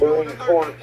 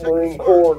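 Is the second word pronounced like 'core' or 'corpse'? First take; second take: corpse; core. First: The last word sounds like 'corpse', with p and s. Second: The last word sounds like 'core', no p or s. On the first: "not Marine Corps" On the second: "it's Marine Corps"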